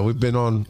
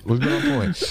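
First: Said in the usual way. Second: We've been on point, stressing point. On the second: Real, not acted. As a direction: point punched high and emphatic.

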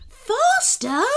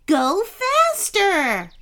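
First: Very high sloth holler; hollered question. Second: High, drawn-out command; urgent yell. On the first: Sloth driver checking Kenny's order, hollering. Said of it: "hollered Sebastian". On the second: Kenny to sloth driver during the chase, urgent yell. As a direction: urge the driver on, yelling. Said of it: "yelled Kenny". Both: A narrator's reading.

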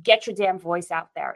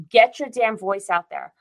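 First: Said in the usual way. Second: Louder, punching GET as a command; rally the viewers, hit the first word hard; fired-up rallying cry. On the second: Real, not acted. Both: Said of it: "And rants, both of us".

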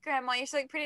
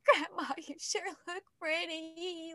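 First: Said in the usual way. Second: Slow, higher, choked mock sob of the lyric; hammed-up teary version of the lyric; imitating crying. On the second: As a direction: play yourself tearing up on "Grandma". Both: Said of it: "Like, crying".

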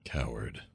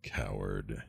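First: Muttered under the breath, very soft; cursing under breath. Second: Cursing under breath. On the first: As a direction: hiss it low to yourself. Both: Acted. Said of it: "That's what I say under my breath".

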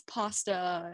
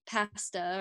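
First: PASTA with open ah, as in father; American pronunciation. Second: PASTA with short flat a, as in cat; Canadian pronunciation. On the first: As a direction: say "pasta" as PAH-sta. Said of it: "in the U S it's". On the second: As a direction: say "pasta" as PASS-ta. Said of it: "when you say, like". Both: Shown as a demonstration.

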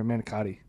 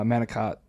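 First: "manicotti" ending in a clear tee; full final vowel. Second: "manicotti" cut short to manicot; final vowel dropped. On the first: Correcting the dish's name, softer "manicotti" with its final ee. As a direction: say "manicotti" with all four syllables. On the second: Trying out the name of a dish, "manicotti" with no last vowel. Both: Real, not acted. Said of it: "That's what it is".

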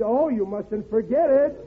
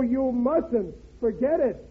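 First: "you mustn't forget it" run together slowly as one sentence; no break between "mustn't" and "forget", said slowly; one smooth phrase. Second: "you mustn't." ended with a full stop, then "Forget it." as a separate blunt order; "you mustn't" falls and stops, "Forget it" snapped on its own; split as two sentences. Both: Acted. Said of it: "I, I said".

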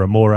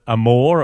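First: "Amore" ending in "ay", three syllables; accented final E. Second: "Amore" ending like "more", E silent; unaccented final E. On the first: Podcaster offering the other reading of a surname, "Amore" with sounded E. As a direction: say "Amore" as "a-MOR-ay". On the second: Podcaster guessing at supporter's surname, "Amore" with silent E. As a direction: say "Amore" as "a-MORE", two syllables. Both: Shown as a demonstration. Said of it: "if there's an accent there either".

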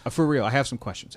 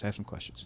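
First: Said in the usual way. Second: Breathy whisper, much softer; whispered aside. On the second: Shown as a demonstration. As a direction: mutter it to yourself under breath. Whispered repeat of the line.

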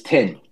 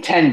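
First: "tin" for ten, short E raised to short I; Kiwi vowel shift. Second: Said in the usual way. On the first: Shown as a demonstration. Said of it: "change the E vowel to an I". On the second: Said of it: "they tend to change the E vowel".

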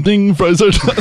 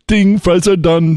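First: Laughing through the repeated line; laughing fast food line. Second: Fast food worker voice. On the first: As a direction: giggle out the fries joke. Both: Retold or imitated.

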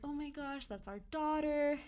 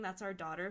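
First: Stunned and high. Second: Said in the usual way. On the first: Retold or imitated. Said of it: "even saying "That's our daughter" felt so weird". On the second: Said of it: "even saying".

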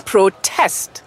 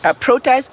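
First: "protest" stressed on the second syllable, TEST; verb stress. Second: "protest" stressed on the first syllable, PRO; noun stress. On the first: Teacher shows the other meaning, "protest" stressed slowly on TEST. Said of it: "slight on the test". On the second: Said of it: "A protest and protest lain". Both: Shown as a demonstration.

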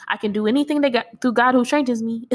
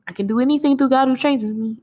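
First: Said in the usual way. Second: Rattled off fast, a mock kid's dinner-table recitation; rushed recitation. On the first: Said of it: "so then we went from Jesus wept to". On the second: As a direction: race through the verse like a hungry kid. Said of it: "we shouldn't have been saying it that quick".

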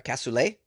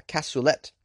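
First: Cassoulet ending in an "ay" sound; silent final T. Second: Cassoulet ending in a "let" sound; sounded final T. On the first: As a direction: say cassoulet French-style, rhyming with "lay". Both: Shown as a demonstration. Tries two pronunciations of the dish.

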